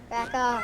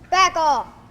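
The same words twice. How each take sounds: First: It is said with a smile, friendly. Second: It is said in a mean, forceful way.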